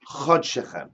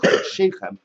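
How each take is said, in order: First: The second word has a short 'e' vowel. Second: The second word has an 'ei' vowel. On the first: It refers to your month, singular. "it can be vocalized as how. Chod Shechem" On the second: It refers to your months, plural. "we pronounce it chod sheichem"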